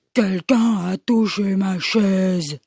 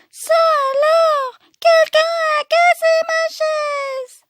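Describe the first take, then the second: First: Low, slow Papa Bear growl; big growling voice. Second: Put-on very high, squeaky Baby Bear; tiny crying-out voice. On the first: Acted. Papa Bear seeing his chair moved, low slow growl. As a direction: rumble it slowly as a big bear. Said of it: "il gronde de sa grosse voix". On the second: Baby Bear finding his chair broken, tiny high cry. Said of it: "de sa toute petite voix".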